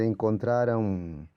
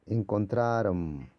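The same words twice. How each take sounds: First: Encontraron ending with the lips closing on a clear final M; correct closed ending. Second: Encontraron said slowly with the final M left open as a nasal vowel; wrong Portuguese ending. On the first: Teacher showing students the right ending, lips closed. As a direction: close the mouth at the end of encontraron. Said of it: "Debería ser encontraron y cerrar la boca". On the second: Teacher showing students the common wrong ending, slow. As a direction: let Encontraron end on an open nasal, lips apart. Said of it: "Por ejemplo, las palabras terminan con M".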